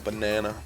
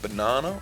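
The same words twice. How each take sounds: First: It is said with an American accent. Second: It is said with a British accent. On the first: "or are we American?" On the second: "Are we British"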